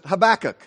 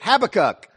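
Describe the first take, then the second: First: The name is said the American way. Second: The name is said the British way. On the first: "in America, we pronounce it Habakkuk" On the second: "I found out they pronounce it Habakkuk"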